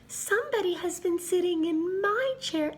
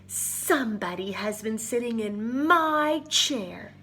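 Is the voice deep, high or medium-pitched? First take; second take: high; deep. First: It is said in a high, small voice. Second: It is said in a deep, growling voice. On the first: A little bear is speaking. "He piped in his little voice" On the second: A big bear is speaking. "the big bear growled in her big voice"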